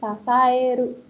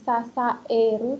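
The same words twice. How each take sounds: First: The a and e are blended together. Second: The a and e are said separately. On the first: The speaker calls it right. "agak ada gabungannya gitu ya" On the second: The speaker calls it wrong. "bukan sasaeru"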